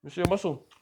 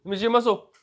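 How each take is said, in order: First: Playful coaxing. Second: Much higher and louder, teasing insistence; louder playful coaxing. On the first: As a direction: tease him into flexing, playful and high. Coaxing a kid to flex. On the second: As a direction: call it out high and loud to coax him. Repeats request, kid refuses. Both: Real, not acted.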